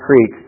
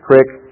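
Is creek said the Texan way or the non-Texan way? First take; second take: non-Texan; Texan. First: Creek is said the non-Texan way. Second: Creek is said the Texan way. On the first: The speaker calls it wrong. "not creek" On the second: The speaker calls it right. "a Texas creek"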